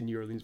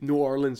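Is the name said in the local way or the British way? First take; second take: British; local. First: The name is said the British way. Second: The name is said the local way. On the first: This is how outsiders usually say it. The speaker calls it wrong. "I'm going to say New Orleans" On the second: This is how people from there say it. The speaker calls it right. "You're supposed to say New Orleans"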